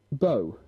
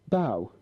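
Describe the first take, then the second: First: The vowel rhymes with 'go'. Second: The vowel rhymes with 'cow'. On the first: A knot tied with loops. "fundă, nod" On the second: The front part of a ship. "Proră, prova"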